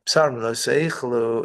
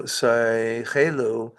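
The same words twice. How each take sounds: First: Said in the usual way. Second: Seichelu said again, slowly, syllable by syllable; slow repeat. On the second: Shown as a demonstration. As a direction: drag out seichelu so it's heard clearly.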